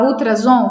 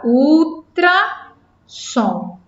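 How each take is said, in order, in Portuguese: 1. A consoante do meio é o som de Z, com vibração. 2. A consoante do meio é o som de S, sem vibração.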